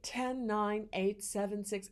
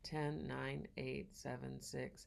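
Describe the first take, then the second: First: The counting is louder, projected on the breath. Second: The counting is quiet, without breath support. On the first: The speaker calls it right. "speak just a little bit louder" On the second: The speaker calls it wrong. "Sometimes kids will not put it on the breath"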